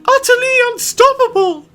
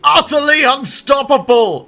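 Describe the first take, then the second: First: It is said in a put-on female voice. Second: It is said in the speaker's normal voice. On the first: The speaker calls it right. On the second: The speaker calls it wrong.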